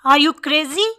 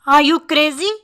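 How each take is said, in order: Both takes have the same delivery.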